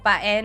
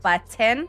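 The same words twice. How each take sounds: First: The t sound in the middle is dropped. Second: The t sound in the middle is pronounced. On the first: This is how the speaker says it. "I say button without a T. I go like button" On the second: This is how most people say it. "instead of button"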